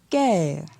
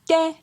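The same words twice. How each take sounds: First: The syllable is said on a falling tone. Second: The syllable is said on a high tone. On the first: "Et pour un ton descendant" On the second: "Pour un ton haut"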